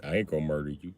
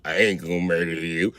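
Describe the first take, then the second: First: Put-on low, soft creepy kid voice. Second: Put-on low, slow, creepy kid voice; slow talking. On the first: Son calmly reassuring his scared dad, low creepy murmur. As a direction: say it low and softly, eerily calm. Son's slow calm voice. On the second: Dad imitating his son's slow creepy talk. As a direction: drag it out low and eerie. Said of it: "see how he talking all slow?".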